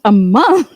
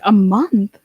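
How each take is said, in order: First: Much louder, incredulous "A month?"; louder shocked disbelief. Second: Louder, incredulous "A month?"; shocked disbelief. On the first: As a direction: push the disbelief harder on "A month?". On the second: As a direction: repeat it in loud disbelief. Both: Retold or imitated. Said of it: "I was like".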